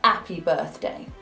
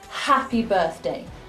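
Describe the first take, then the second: First: The H at the start is dropped. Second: The H at the start is clearly pronounced. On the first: The speaker calls it wrong. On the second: The speaker calls it right. "We never drop the letter H"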